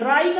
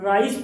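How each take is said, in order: First: The word ends with a k sound. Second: The word ends with an s sound. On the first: The speaker calls it wrong. "राई का नहीं पढ़ेंगे" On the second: The speaker calls it right. "हम राइस पढ़ेंगे"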